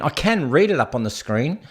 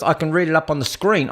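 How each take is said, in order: First: "can" said in full, unreduced, with weight; stress on CAN. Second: Said in the usual way. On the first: Shown as a demonstration. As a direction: lean firmly on the word "can". Says it again, stressing can.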